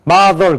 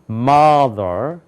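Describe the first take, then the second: First: It is said flatly in a Korean style. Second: It is said with English-style stress. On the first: The speaker calls it wrong. "그럼 틀리는 거예요. 그건 한국말이에요" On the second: The speaker calls it right. "이렇게 되는 거예요"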